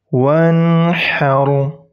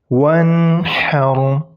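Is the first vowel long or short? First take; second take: short; short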